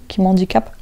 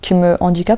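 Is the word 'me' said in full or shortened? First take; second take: shortened; full. First: The word 'me' is shortened onto the next word. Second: The word 'me' is said in full.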